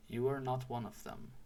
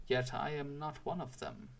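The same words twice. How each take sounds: First: Said in the usual way. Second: Mildly musing, a touch of wondering. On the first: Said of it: "returned the woodsman". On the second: A narrator's reading. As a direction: muse on it lightly, as if to yourself. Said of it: "said Claus musingly".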